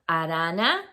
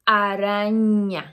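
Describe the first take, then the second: First: The middle consonant is a plain N sound. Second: The middle consonant is an NY sound. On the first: The speaker calls it wrong. "You don't say arana" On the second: The speaker calls it right. "you say araña"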